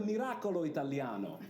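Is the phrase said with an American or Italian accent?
Italian. It is said with an Italian accent. The speaker calls it right. "It's better"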